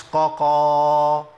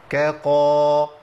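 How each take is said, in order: First: Slow loud chant of ققا, both letters heavy q; drawn-out faulty ققا, q in place of k; wrong double qaf. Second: Slow loud chant of كقا, thin k then heavy q; drawn-out correct كقا, k and q kept apart; light kaf before qaf. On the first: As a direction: hold ققا long, kaf thickened to qaf. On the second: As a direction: hold كقا long, first letter a light kaf. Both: Shown as a demonstration. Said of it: "مش ققا".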